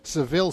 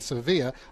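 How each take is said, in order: First: The name is said in an English accent. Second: The name is said in a Spanish accent.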